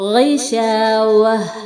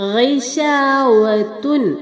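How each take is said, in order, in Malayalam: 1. ഈ വാക്ക് നിശബ്ദമായ 'h' ശബ്ദത്തിൽ അവസാനിക്കുന്നു. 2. ഈ വാക്ക് പൂർണ്ണമായ 'tun' ശബ്ദത്തിൽ അവസാനിക്കുന്നു.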